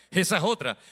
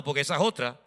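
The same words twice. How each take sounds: First: Laughing repeat. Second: Said in the usual way. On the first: Real, not acted. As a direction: say "esa es otra" through a chuckle.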